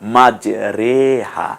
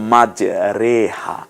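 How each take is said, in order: No difference in how they are said.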